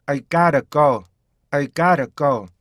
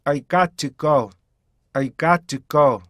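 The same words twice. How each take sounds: First: "got to" melted into gotta; flapped, joined-up "gotta"; linked "gotta go". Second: "got to" as two separate words; careful "got to go". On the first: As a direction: tap the T in "gotta" like a quick R. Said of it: "약간 연음만 시켜서". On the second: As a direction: sound a clear T in "got to". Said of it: "정확히 읽었다가". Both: Shown as a demonstration.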